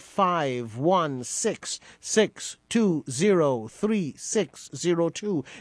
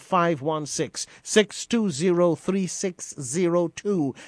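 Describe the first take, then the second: First: The number is said slowly. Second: The number is said at normal speed.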